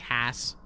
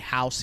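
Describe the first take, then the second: First: It is said with a flat Pittsburgh ah vowel. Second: It is said with a standard ow vowel.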